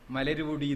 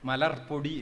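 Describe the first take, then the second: First: A short u vowel follows the r before podi. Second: The r joins podi directly with a doubled p. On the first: The speaker calls it wrong. "മലരുപൊടി എന്നല്ല പറയുക" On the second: The speaker calls it right. "മലർപ്പൊടി എന്നാണ് പറയുക"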